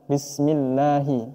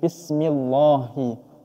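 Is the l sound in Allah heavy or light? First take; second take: light; heavy. First: The l in Allah is light and thin. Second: The l in Allah is heavy and thick. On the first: The speaker calls it right. "Di lafaz Allah ini harus tarqiq" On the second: The speaker calls it wrong.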